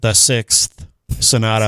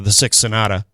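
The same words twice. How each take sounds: First: It is said slowly, with the final th sounded. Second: It is said quickly, with sixth reduced to six. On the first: "If I slow it down, I can do it" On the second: "if I say it fast, I'm just going to say"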